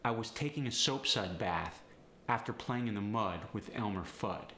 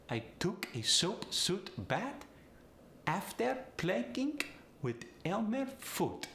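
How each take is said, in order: First: Said in the usual way. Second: Polish accent with final D as T; high Polish accent, "Fudd" as "Foot". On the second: Shown as a demonstration. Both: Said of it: "Switch that D to a T".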